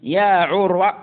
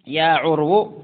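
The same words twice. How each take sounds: First: عروة said "'urwa", ending in a. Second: عرو said "'urwu", ending in u. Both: Shown as a demonstration. Teacher shows variant vocative endings.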